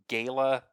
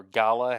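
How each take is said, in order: First: "Gala" rhymed with sailor minus the R. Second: "Gala" with first syllable like "ah"; "Gala" as GAH-luh. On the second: Host offers another way to say it, "Gala" as GAH-luh. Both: Real, not acted. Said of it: "however you pronounce that".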